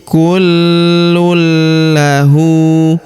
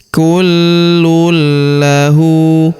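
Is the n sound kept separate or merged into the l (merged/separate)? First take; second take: merged; merged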